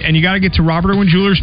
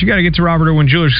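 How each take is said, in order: First: It is said in a lively, excited voice. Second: It is said in a plain, casual voice.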